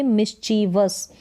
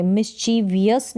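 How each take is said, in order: First: "मिसचीवस" slowly, ending in just vus; three syllables. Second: "मिसचीवियस" ending in vee-us; extra I syllable. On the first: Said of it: "नहीं बोलेंगे". ("मिसचीवस" धीरे, अंत में सिर्फ़ वस) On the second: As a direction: say "मिसचीवियस" with four syllables, mis-chee-vi-us. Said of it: "मिसचीवियस नहीं बोलेंगे". ("मिसचीवियस" के अंत में वियस) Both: Shown as a demonstration.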